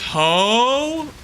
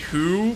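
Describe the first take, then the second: First: The vowel sounds like the one in 'go'. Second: The vowel sounds like the one in 'too'. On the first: "So it's ho?" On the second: "You want me to say who? But who's like W H O?"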